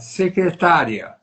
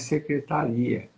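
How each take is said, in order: First: The stress is on the syllable -tá-. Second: The stress is on the final syllable -ri-.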